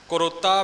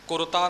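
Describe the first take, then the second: First: The word has three syllables with a doubled t. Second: The word is run together in two syllables. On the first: The speaker calls it right. "ਕੱਕੇ ਔਂਕੜ ਕੋ ਅਤੇ ਅੱਗੇ ਰੁੱਤਾ, ਕੋ ਰੁੱਤਾ ਇਉਂ ਪਾਠ ਕਰਨਾ ਹੈ" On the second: The speaker calls it wrong. "ਕੁਰਤਾ ਨਹੀਂ ਇੱਥੇ ਬੋਲਣਾ, ਪੋਲਾ ਜਿਹਾ ਕਰਕੇ ਉਚਾਰਨ ਨਹੀਂ ਹੋਵੇਗਾ"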